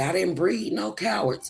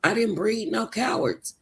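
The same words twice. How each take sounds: First: A hint of a stern country father; lightly voiced dad laying down the law; imitating daddy. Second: "didn't" leaned on in "I didn't breed no cowards"; a hint of a stern father, stressing didn't; repeated for emphasis. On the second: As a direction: press the word didn't, falling at the end. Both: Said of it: "He would always say".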